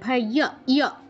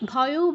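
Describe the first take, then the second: First: The word ends in a ya glide. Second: The word ends in an o vowel. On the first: The speaker calls it right. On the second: The speaker calls it wrong.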